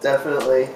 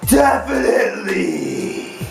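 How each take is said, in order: First: It is said flatly, without much feeling. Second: It is said with lots of passion.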